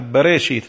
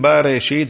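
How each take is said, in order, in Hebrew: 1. התנועה הראשונה היא 'a' קצרה ומצומצמת. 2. התנועה הראשונה היא 'a' מלאה. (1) "כמו חטף פתח" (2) "לא אומרים בראשית, זה לא פתח"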